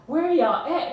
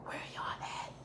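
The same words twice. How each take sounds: First: Higher-pitched pleading call, mildly tearful; retold crying plea. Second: Barely-there whispered plea; tearful whisper. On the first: Dreamer calling for missing family and friends, tearful plea. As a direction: call out for them, voice lifting. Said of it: "And I'm crying". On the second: Retold or imitated. Dreamer searching for missing loved ones, tearful whisper. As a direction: whisper it, as if too choked to speak.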